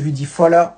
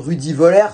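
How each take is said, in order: First: The surname begins with an F sound. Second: The surname begins with a V sound. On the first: "Moi je dis Rudy Fowler. Parce que le V se prononce F" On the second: "pour ceux qui ceux qui ne le prononcent pas à l'allemande"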